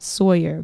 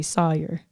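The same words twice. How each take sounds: First: "Sawyer" with a full "soy-er" glide; own Sawyer. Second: "Sawyer" flattened to "saw-er", no glide; Southern Sawyer. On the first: Shown as a demonstration. Northern-raised speaker gives her own "Sawyer", "soy-er" glide. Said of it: "I would say that Sawyer". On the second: Retold or imitated. Imitating how Southerners say Sawyer, "sah-er". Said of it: "people from the South say Sawyer".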